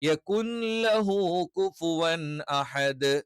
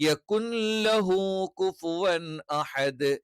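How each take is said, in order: Both takes have the same delivery.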